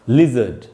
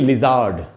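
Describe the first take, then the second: First: The second vowel is a short, reduced schwa. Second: The second vowel is a full, long aa. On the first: The speaker calls it right. "लिजर्ड बोलेंगे, क्योंकि यहां श्व sound है" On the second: The speaker calls it wrong. "न कि लिजार्ड नहीं बोलेंगे"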